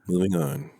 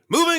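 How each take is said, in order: First: It is said flat, with little energy. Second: It is said with lively, high energy.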